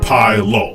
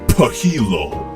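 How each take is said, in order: First: The vowel after P sounds like 'eye'. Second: The vowel after P sounds like 'ee'. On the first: "the Y could also be an I or an E, so it's obviously high" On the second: "the Y could also be an E, it could be pahilo"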